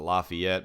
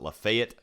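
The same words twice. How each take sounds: First: The name has its widespread standard pronunciation. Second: The name has its local regional pronunciation. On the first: This is how people elsewhere say it. "the rest of the world pronounces it Lafayette" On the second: This is how people in the speaker's town say it. "my town pronounces it Lafayette in that county"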